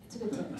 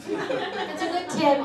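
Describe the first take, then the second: First: Said in the usual way. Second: Drawn-out laughing emphasis on tip; laughing repeat. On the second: Shown as a demonstration. Comic repeating her tip to audience, laughing. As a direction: say it again, slow and laughing.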